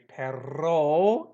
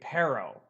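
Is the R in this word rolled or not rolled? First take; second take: rolled; not rolled. First: The R is strongly rolled. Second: The R is not rolled. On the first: "But if you want to say perro, it's dog" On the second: "if you just say perro for now because you can't roll your R, don't worry about it. Just say perro"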